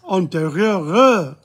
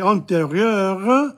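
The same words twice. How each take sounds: First: The final R sound is stretched out. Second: The final R sound is short. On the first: The word is in the feminine form. "antérieur in the feminine. You sort of stretch the R a bit" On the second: The word is in the masculine form. "if you say antérieur in the masculine"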